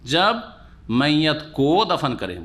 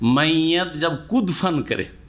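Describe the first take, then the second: First: It is split as 'ko' then 'dafan'. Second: It is split as 'kud' then 'fan'. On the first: When the dead person is buried. The speaker calls it right. "মৃত ব্যক্তিকে যখন দফন করবে" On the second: When the dead person jumps. The speaker calls it wrong. "কোটাকে দালের কাছে দফানের সাথে করে দিয়েছে"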